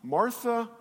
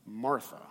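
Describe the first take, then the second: First: "Martha" pitched high, as an opening call; first calling of name. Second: "Martha" dropped low and softer; second calling of name. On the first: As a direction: call "Martha" gently but raised in pitch. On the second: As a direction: repeat "Martha" lower, with a small rise. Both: Acted. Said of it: "He says it twice".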